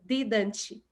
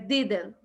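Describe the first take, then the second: First: The final T is clearly released. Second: The final T is dropped. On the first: The speaker calls it wrong. "a gente também não pronuncia muito T, então não é" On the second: The speaker calls it right. "é didn't"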